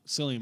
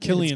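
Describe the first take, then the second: First: The name begins with a soft S sound. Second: The name begins with a hard K sound. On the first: The speaker calls it wrong. "I'm still going to say it wrong" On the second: The speaker calls it right. "It's Killian"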